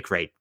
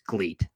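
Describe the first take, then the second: First: The name is said with an R sound. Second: The name is said with an L sound. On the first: "people say Great ... you're supposed to pronounce it with an R" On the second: "but I say Gleet. If there's a fucking L in there"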